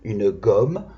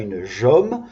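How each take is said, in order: First: The word starts with a hard G sound. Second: The word starts with a soft J sound. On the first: The speaker calls it right. "ici on a G et pas J" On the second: The speaker calls it wrong. "ce n'est pas une jomme"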